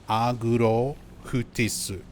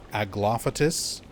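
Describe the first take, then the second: First: It is said with Japanese R and H sounds. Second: It is said with English L and F sounds. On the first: "there is no real F sound in Japanese... no L sound" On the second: "instead of Aglaophatus"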